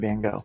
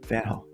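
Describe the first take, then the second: First: The name is said with an American pronunciation. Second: The name is said with a Dutch pronunciation. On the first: "here in America, we call him Van Gogh" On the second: "it's a hard G"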